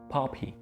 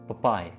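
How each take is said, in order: First: The word ends with an 'ee' sound. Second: The word ends with an 'eye' sound. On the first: The speaker calls it right. "पॉपी पॉपी right." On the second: The speaker calls it wrong. "कुछ लोग इसको पपाय कहते हैं। ... जो कि गलत है।"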